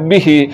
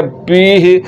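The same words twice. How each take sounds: First: बिही with a short clipped बि. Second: बीही with a stretched बी vowel, deliberately wrong; long i. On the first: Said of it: "ज़ेर को लंबा नहीं करना है". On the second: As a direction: drag the बी out in बीही. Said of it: "ज़ेर को लंबा करने की वजह से". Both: Shown as a demonstration.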